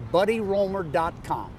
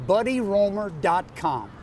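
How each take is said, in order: Both takes have the same delivery.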